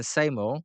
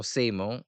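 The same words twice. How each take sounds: First: Seymour said as SAY-more; first syllable of Seymour rhymes with "say"; variant pronunciation. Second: Seymour said as SEE-more; first syllable of Seymour rhymes with "see"; alternative pronunciation. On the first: Commentator unsure of the pitcher's name, Seymour pronounced SAY-more. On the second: Commentator offers another way to say the name, Seymour pronounced SEE-more. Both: Shown as a demonstration. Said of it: "however you wanna say it".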